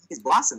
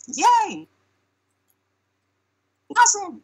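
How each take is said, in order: First: Said in the usual way. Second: Very high-pitched imitated cheer; mock yell. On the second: Someone at the party calling for the voice, high mock yell. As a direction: yell it like a crowd member, way up high. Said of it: "Someone yells".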